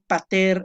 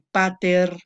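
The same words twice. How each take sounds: First: The stress is on the last syllable. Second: The stress is on the first syllable. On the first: It names the father as the subject. "aquí pater es el nominativo" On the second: It addresses the father directly. "pater es el, el, el vocativo. ... El acento se recorre a la primera sílaba"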